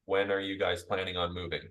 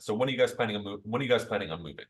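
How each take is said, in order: First: Flat, toneless robot-like reading; analytical tone. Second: Pushy, pressing salesperson question; assertive tone. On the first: Salesperson reading off a script, flat and analytical. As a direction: read it like a dry script. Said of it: "We use that in an analytical tone". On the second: Salesperson pressing a homeowner, assertive and pushy. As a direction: push the question hard like a pushy seller. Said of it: "if I use that in assertive tone". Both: Shown as a demonstration.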